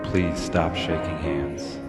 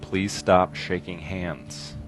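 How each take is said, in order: First: The voice sounds echoey, with added reverb. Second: The voice sounds dry, without added reverb.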